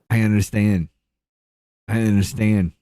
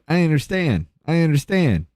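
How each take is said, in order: First: A clear pause separates the two phrases. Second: The two phrases run together without pausing. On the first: "took that pause between I understand twice" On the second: "he's just like"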